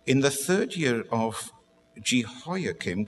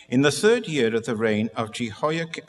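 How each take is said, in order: First: Slow Bible reading with pauses; unhurried restart. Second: Launching straight into the reading without pauses; rushing on. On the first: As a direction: take the verse again, slowly and measured. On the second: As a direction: rush on into the Bible verse. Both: Real, not acted. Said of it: "I do rush on a little bit".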